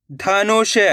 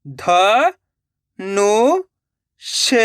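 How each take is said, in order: First: Said in the usual way. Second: ध, नु, ष with a pause after each; syllable by syllable. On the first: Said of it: "direct मात्रा का उच्चारण करके पढ़ेंगे". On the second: Shown as a demonstration. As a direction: sound out ध, नु, ष one by one. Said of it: "एक एक अक्षर का उच्चारण करके". (ध, नु, ष एक-एक अक्षर रुक-रुक कर)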